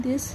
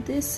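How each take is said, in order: Both takes have the same delivery.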